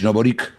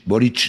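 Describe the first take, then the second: First: The name ends with a k sound. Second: The name ends with a ch sound. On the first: The speaker calls it wrong. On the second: The speaker calls it right. "se pronuncia ch"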